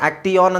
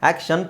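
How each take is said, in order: First: The middle is a separate 't-ee-y' sound sequence. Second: The middle is a single 'sh' sound. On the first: The speaker calls it wrong. "ಆಕ್ಟಿಯಾನ್ ಅಂತಿಲ್ಲ ತಾನೆ" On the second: The speaker calls it right. "ಆಕ್ಷನ್ ತಾನೆ"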